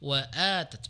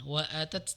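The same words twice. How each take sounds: First: The first vowel is long. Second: The first vowel is short. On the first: The speaker calls it right. "tapi wa'atat panjang" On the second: The speaker calls it wrong. "bukan wa'atat"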